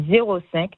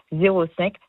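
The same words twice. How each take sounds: The two takes are said the same way.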